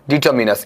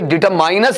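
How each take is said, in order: First: The third syllable has a short 'mi' sound. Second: The third syllable has a long 'mine' sound. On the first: The speaker calls it right. "इसका उच्चारण सुन लीजिएगा" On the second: The speaker calls it wrong. "इसे डिटरमाइनस नहीं बोलना है"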